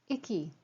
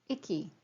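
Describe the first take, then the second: The two takes are said the same way.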